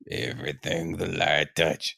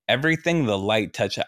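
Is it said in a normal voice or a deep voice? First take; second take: deep; normal. First: It is said in a deepened Mufasa voice. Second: It is said in his normal voice.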